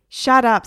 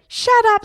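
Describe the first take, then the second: First: Put-on loud, irritated boy; Egbert. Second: Very high, loud parrot echo; Harry. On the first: Boy to parrot on his head, loud irritation. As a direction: snap it loudly at a pest. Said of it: "said Egbert". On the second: Acted. Parrot echoing boy, very high squawk. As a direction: squawk it back as a mimicking parrot. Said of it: "said Harry".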